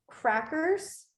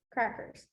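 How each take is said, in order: First: Said in the usual way. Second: "crackers" said again, much softer and falling; soft repeated "crackers"; quiet repeat. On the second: Shown as a demonstration. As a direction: drop to a soft second take of "crackers". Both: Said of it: "Country is country".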